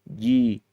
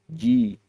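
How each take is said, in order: No difference in how they are said.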